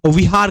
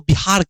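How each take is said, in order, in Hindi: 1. यह शब्द v ध्वनि से शुरू होता है। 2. यह शब्द b ध्वनि से शुरू होता है। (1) "जहां पे वी आता है" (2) "उनको बिहार कह देंगे"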